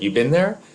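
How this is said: The voice rises at the end. It is a question. "or it could be an interrogative"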